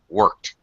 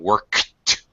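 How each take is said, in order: First: The K sound is barely heard. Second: The K sound is fully released. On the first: The speaker calls it right. "I'm not fully pronouncing that K" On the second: The speaker calls it wrong. "I'm not saying worked"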